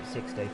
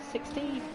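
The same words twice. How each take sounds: First: "Sixty." low and falling, decided; settled statement. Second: "sixty?" rising high as a question; questioning tune. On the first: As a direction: state "Sixty." flatly downward. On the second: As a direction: ask "sixty?" with a high lift. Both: Real, not acted.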